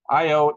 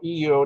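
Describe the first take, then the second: First: The name begins with an "eye" sound. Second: The name begins with an "ee" sound. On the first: "it's spelled I O" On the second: "He called it E O"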